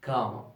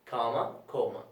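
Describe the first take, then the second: First: Comma with an open American a, kʰɑma; American pronunciation. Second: Comma with a rounded British o, kʰoma; British pronunciation. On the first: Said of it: "American is". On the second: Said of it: "the pronunciation, okay, is British". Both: Shown as a demonstration.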